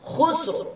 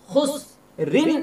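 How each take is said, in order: First: The word stops on a bare r. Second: The word ends in rin, flowing into the next word. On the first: The reader stops at the end of the verse. "যদি আপনারা এই আয়াতের মধ্যে নিঃশ্বাস নেন" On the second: The reader continues into the next verse. "যদি আপনারা এখানে মিলিয়ে নিয়ে পড়েন"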